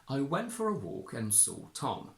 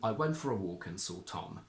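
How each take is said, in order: First: The intonation on Tom is strong. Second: The intonation on Tom is softer. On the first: It sounds like traditional RP. "the traditional strong R P intonation" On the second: It sounds like modern RP. "with a slightly softer intonation pattern on Tom"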